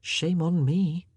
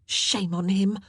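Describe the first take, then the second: First: Slow, inward self-blame; slow, guilty private thought; distraught self-reproach. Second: Higher, indignant murmur; shocked condemnation. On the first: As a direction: turn the blame inward, drawn out. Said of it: "Anne thought, distraught". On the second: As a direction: condemn him in shocked agreement. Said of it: "the others murmured shocked agreement". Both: A narrator's reading.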